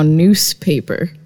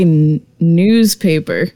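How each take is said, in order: First: The first part sounds like noose. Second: The first part sounds like news. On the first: "is now newspaper. like a noose" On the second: "the way we say newspaper"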